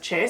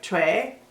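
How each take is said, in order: First: The name is said quickly as a short syllable. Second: The name is said slowly with a fuller vowel. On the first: "most people just say it fast as Che" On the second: "it's actually kind of like Choi"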